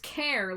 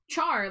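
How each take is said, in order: First: It starts with a k sound, like care. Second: It starts with a ch sound, like char. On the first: "Care like character" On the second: "Char like Charmander"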